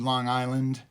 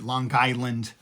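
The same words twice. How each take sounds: First: It is said plainly, without a hard G. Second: It is said Long Island style, sounding the G.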